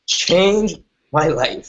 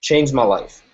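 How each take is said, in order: First: Very slow, choked up with real emotion. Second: Said in the usual way. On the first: Real, not acted. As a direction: let the memory catch in the throat, slowly. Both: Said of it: "Forgive me if I get emotional".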